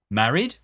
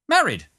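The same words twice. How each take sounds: First: "Married" with a rising question tune; questioning echo. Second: "Married" high and loud, falling sharply; emphatic confirmation. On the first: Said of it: "forgot all about repeating things". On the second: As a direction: insist on "Married" from a high pitch down. Bumpster confirms his wedding emphatically. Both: A narrator's reading.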